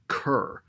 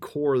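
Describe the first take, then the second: First: The word rhymes with pure. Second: The word rhymes with core. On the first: The speaker calls it right. "the pronunciation is cur, as in like rhyming with a pure" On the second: The speaker calls it wrong. "I've been saying core this whole time"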